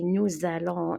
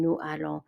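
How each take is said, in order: First: A z sound links nous to allons. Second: No z sound links nous to allons. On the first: The speaker calls it right. "I add a Z sound" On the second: The speaker calls it wrong. "instead of saying"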